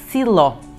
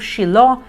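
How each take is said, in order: First: The name begins with an s sound. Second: The name begins with an sh sound. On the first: This is the Portuguese form. "Em português, na Bíblia de vocês" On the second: This is the Hebrew pronunciation. "essa é a pronúncia em hebraico"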